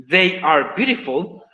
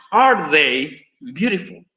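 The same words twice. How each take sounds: First: Said in the usual way. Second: Pregunta muy lenta. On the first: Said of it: "lo que dijiste tú, Natalia". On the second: Shown as a demonstration. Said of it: "pasaría a ser".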